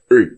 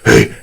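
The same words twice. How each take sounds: First: The voice is firm and projected, as if calling. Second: The voice is breathy, like a whisper. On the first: "when you are talking for someone in a long distance" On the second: "The warm air is basically when we are doing some whispering thing"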